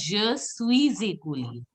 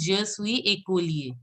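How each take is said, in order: First: "Je suis écolier" linked as "swee-zay-koh-lyay"; liaison with Z. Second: "Je suis écolier" with silent s in "suis"; without liaison. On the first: Teacher teaching the new way, "Je suis écolier" with z liaison. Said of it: "It should be the Z". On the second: Teacher recalling the earlier way for students, "Je suis écolier" without liaison. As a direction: say "suis écolier" as "swee ay-koh-lyay", no z. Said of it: "I told you how to pronounce". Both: Shown as a demonstration.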